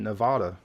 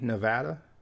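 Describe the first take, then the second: First: The middle vowel is a Spanish-style A. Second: The middle vowel is a hard English A. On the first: "with the Spanish pronunciation" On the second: "like I do with a hard A"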